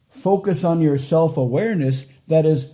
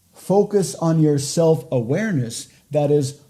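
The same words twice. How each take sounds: The two takes are said the same way.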